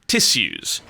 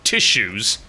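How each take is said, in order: First: It is said with an English pronunciation. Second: It is said with an American pronunciation. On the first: The speaker calls it right. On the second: The speaker calls it wrong.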